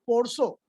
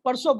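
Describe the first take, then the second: First: "पोरसो" with rounded o in both syllables; Bengali-accented "पोरसो", round vowels; Bengali pronunciation. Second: Said in the usual way. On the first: Shown as a demonstration. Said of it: "Bengal में क्या बोलते हैं". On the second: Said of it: "हम यहाँ परसों बोलते हैं".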